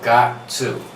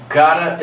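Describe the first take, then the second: First: The word 'to' is said in full. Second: The 'to' shrinks to a short schwa.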